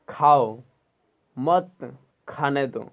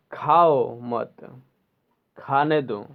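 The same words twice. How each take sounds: First: Loud खाओ alone, then मत खाने दो together; pause after खाओ. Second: Slow, drawn-out खाओ मत, then खाने दो; pause after मत. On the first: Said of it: "coma देने से उसका सेंटेंस का अर्थ". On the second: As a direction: keep मत with खाओ and break before खाने दो. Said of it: "और दूसरा नंबर में". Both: Shown as a demonstration.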